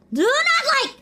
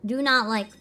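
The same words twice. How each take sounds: First: High, loud "Do not like!"; loud protest. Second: Said in the usual way. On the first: Real, not acted. Streamer protesting a sad game scene, loud and high. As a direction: shout it back at the game. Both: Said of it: "repeated protest".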